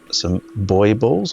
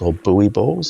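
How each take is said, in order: First: Buoy is said in the speaker's local pronunciation. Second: Buoy is said in an American pronunciation. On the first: "We call them buoy balls here" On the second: "as um, um, Americans like to call them"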